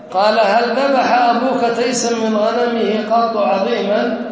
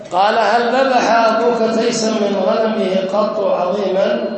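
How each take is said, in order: No difference in how they are said.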